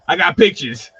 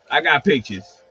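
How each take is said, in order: First: Said in the usual way. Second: Repeats it while laughing. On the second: Real, not acted. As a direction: chuckle through the brag.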